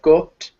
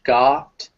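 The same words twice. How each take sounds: First: The vowel is said with a British accent. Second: The vowel is said with an American accent. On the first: "in British English, it'll be a bit more like got" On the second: "in American English, it's very much got"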